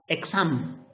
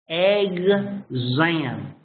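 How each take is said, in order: First: The x is sounded as ks. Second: The x is sounded as gz. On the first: The speaker calls it wrong. "You don't say exam, exam, like in Spanish" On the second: The speaker calls it right. "You're supposed to say"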